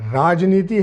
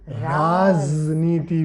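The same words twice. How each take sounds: First: The first syllable has a plain 'j' sound. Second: The first syllable has a 'z' sound.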